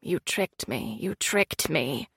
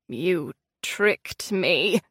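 First: Very low, fading echo; cave echo. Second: Low, slow and drawn out; slow low accusation; accusing queen. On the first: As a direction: let it echo and fade away. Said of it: "her voice echoed off the cavern walls, repeating the words". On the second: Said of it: "she said". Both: A narrator's reading.

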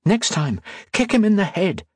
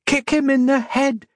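First: Lightly voiced high female character; raised pitch, no yell; chiding heroine. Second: Very high, urgent call; high-pitched yelled order; yelled from above. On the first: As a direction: say it high, as a pointed reminder. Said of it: "she said". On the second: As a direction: call it down high, held in volume. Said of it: "Octavia yelled from above". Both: A narrator's reading.

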